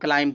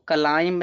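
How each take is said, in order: First: The b sound is silent. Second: The b sound is pronounced. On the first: The speaker calls it right. "इसको क्लाइम पढ़ते हैं" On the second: The speaker calls it wrong. "इसको क्लाइम नहीं पढ़ते"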